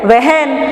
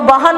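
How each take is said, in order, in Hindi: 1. पहला स्वर 'e' के करीब बोला जाता है। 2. पहला स्वर सादे 'a' की तरह बोला जाता है। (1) "ए की तरह उच्चारण करना चाहिए" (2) "हम लोग बहन नहीं कहते"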